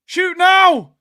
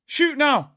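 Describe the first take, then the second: First: Louder shout. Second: Loud urging. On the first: Urging louder at the screen. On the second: Urging a shot at the screen. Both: Real, not acted.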